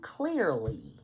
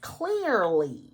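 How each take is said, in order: First: It is said in a normal speaking voice. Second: It is said in a sweet, sugary put-on voice.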